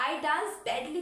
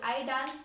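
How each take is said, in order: First: A bit louder, showing a bad dance; expressive badly. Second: Said in the usual way. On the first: Shown as a demonstration. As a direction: say "badly" with a note of disgust. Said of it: "मेरे expression भी इसमें change है". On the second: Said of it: "मैं dance कर रही हूँ".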